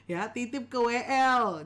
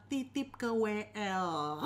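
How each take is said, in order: First: Ya, titip ke W L said louder, leaning hard on L; louder emphatic repeat. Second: Slow deliberate tip. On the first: Teacher repeating the tip to pastors, louder and emphatic. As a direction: hammer the tip home with a louder voice. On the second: Teacher giving pastors a tip, slow and deliberate. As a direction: slowly spell out Titip ke W L, each word placed. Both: Shown as a demonstration.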